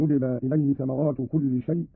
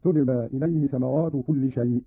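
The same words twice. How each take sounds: First: Said in the usual way. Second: A clear t in place of y on "تجبى"; feminine ta. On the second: Shown as a demonstration. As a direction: start "تجبى" with t, tujba. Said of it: "بالتاء على التأنيث هكذا". ("تجبى" بالتاء على التأنيث)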